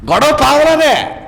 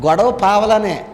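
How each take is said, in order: First: Higher, slower, with పావలానే pressed hard and falling; emphatic repeat. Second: Said in the usual way. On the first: Shown as a demonstration. Preacher repeats the point to the congregation, driving it home. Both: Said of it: "నా మాట మీకు అర్థమైంది లేదా?".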